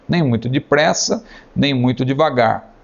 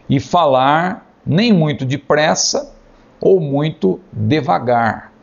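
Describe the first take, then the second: First: Said in the usual way. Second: Slow, spaced-out words with pauses; deliberately slow. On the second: Shown as a demonstration. Teacher dictating advice on speaking pace, slow and deliberate. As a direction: stretch "depressa" and "devagar" out slowly.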